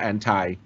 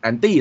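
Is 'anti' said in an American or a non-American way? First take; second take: American; non-American. First: It is said with the American pronunciation. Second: It is said without the American pronunciation.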